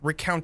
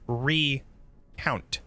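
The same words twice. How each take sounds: First: Re and count run together as one word. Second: Re is said apart from count. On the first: It means to tell or recall. The speaker calls it wrong. "Not recount as remember" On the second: It means to count again. The speaker calls it right. "has a little hyphen in between re and count"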